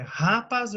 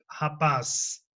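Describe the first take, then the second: First: "rapaz" wrongly stressed as RÁ-paz; stress on first syllable. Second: "rapaz" stressed as ra-PAZ; stress on last syllable. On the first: Teacher offers a wrong option, stress on RA of "rapaz". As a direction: hit RA in "rapaz", let PAZ drop. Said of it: "Você fala é rapaz". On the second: Teacher gives the right option, stress on PAZ of "rapaz". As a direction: lean on the final PAZ of "rapaz". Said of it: "ou é rap". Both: Shown as a demonstration.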